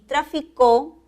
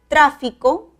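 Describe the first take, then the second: First: The stress is on the last syllable. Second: The stress is on the first syllable. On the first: It is a verb. "es una palabra aguda" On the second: It is a noun. "palabra esdrújula con tilde"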